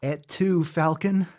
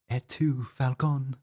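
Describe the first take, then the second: First: Higher, theatrical Caesar lament; hammed-up Roman tragedy; mock Caesar. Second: Said in the usual way. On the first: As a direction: play the betrayed emperor. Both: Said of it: "you too?".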